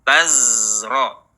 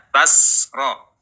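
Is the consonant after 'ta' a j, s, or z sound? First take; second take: z; s. First: The consonant after ta is a voiced z. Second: The consonant after ta is a voiceless s. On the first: The speaker calls it right. "alirkan suaranya" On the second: The speaker calls it wrong. "tidak dibaca tasro, jangan dialirkan nafasnya"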